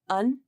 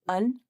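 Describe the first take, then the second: First: It is a weak vowel followed by n. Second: The same.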